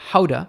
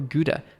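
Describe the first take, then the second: First: It is said with a Dutch pronunciation. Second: It is said with an English pronunciation. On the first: The speaker calls it right. "it's pronounced more like Gouda" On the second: The speaker calls it wrong. "a lot of English speakers say Gouda"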